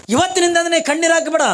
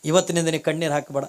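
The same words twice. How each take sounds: First: ಇವತ್ತಿನಿಂದ ನೀ ಕಣ್ಣೀರು ಹಾಕಬೇಡ called out high and loud; a divine voice commanding from above; loud proclamation. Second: Said in the usual way. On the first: Acted. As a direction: boom it like a voice from the sky. Heavenly voice proclaims.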